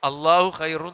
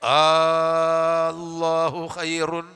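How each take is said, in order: First: The opening vowel is short, not lengthened. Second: The opening vowel is drawn out long. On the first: The speaker calls it wrong. "എന്നല്ല ഉച്ച ഓതേണ്ടത്" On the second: The speaker calls it right. "ആ എന്നുള്ളത് മദ് കൊടുത്തിട്ടാവും ഉച്ചരിക്കേണ്ടത്"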